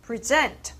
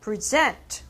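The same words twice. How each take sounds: First: The stress is on the second syllable. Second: The same.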